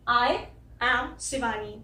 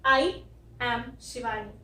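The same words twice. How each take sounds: First: I said as a clear eye sound; I am Shivani with full eye vowel; correct version. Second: I said as a short clipped ai, the wrong way; I am Shivani with a weak I; wrong version. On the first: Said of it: "इसको आई बोलना है". (सही उच्चारण वाला I) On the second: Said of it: "और ना कि". (गलत उच्चारण वाला I) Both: Shown as a demonstration.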